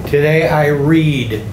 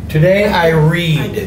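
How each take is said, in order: The two takes are said the same way.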